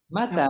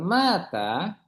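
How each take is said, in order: First: The first vowel is short. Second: The first vowel is long. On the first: It means when. "jadi ma-nya pendek" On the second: It means died. "matilah, mati kan?"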